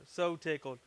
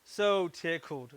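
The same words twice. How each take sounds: First: Said in the usual way. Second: Slow, savoring "so tickled"; drawn-out so tickled. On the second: Real, not acted. Maker delighted at his finished wedding wands, slow.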